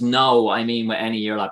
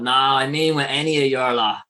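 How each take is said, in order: First: The first word is a plain, unaccented 'no'. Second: The first word is a Dublin-accented 'nah'. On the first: "which is no" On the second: "in a Dublin accent, which I'm doing in that, Dublin people will always go"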